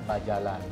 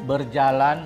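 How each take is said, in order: First: The first syllable is "ba" with an a vowel. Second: The first syllable is "ber" with an e vowel. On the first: This is the Berau form. "bahasa Berau itu memakai vokal huruf A" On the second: This is the Malay form. "Kalau bahasa Melayu kebanyakan memakai vokal huruf E"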